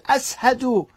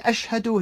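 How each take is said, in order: First: The middle consonant is an s sound. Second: The middle consonant is an sh sound. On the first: "He says ashadu" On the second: "He cannot say ashhadu"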